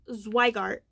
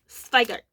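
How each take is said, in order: First: The name is said with an English pronunciation. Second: The name is said with a German pronunciation. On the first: The speaker calls it wrong. "not Zweigart" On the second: The speaker calls it right. "Ich spreche Deutsch. Es ist Zweigart"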